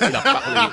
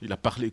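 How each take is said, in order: First: Laughing, hammed-up African bled accent, higher and louder. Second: Said in the usual way. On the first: Host mimics the bled accent of the guest's remark, hammed-up African bled accent. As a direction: put on a playful African village accent. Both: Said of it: "comme on dit au bled".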